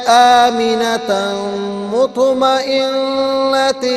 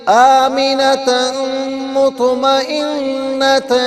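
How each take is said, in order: Both takes have the same delivery.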